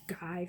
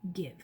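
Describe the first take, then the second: First: The vowel is a long 'eye' sound. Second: The vowel is a short 'i' sound. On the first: The speaker calls it wrong. "should say I, that's its name. So this does not say give" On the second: The speaker calls it right. "it says give"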